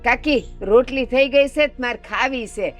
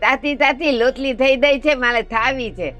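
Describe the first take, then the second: First: Consonants are pronounced in the normal adult way. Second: Consonants are swapped in a lisping child's way. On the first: This is how one talks after growing up. "પછી મોટા થઈને એવું બોલે" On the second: This is how he talked as a little boy. "પેલા નાનો હતો ને ત્યાર મને હું કેતો ખબર"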